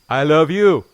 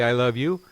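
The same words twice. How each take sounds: First: It is said loudly. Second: It is said at normal, soft volume.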